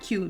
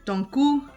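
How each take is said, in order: First: The last syllable sounds like 'cue'. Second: The last syllable sounds like 'koo'. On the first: The speaker calls it wrong. "not Q" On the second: The speaker calls it right.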